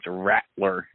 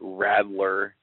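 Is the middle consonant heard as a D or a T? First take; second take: T; D. First: The middle consonant sounds like a T. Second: The middle consonant sounds like a D. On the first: The speaker calls it right. "when it's Rattler. There's no D" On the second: The speaker calls it wrong. "hear you say Rattler"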